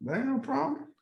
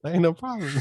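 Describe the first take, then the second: First: High and casual. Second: Mocking echo. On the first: Real, not acted.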